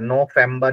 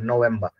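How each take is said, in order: First: The middle consonant is an f sound. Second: The middle consonant is a v sound. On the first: The speaker calls it wrong. "फ का साउंड नहीं कर रहा, नो फेम्बा नहीं बोल रहे" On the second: The speaker calls it right. "ये वा की साउंड कर रहा है"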